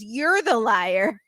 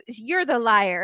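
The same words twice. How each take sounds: First: Drawn-out copycat retort with a rising end; mock parroting. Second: Said in the usual way. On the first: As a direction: parrot the accusation back, stretching it slowly. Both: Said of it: "he just repeats everything".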